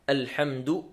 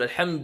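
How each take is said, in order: First: The d is followed by the vowel u. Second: The d is said with no vowel after it. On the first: The speaker calls it right. "نضم حرف الدال" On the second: The speaker calls it wrong. "ليس بتسكينها"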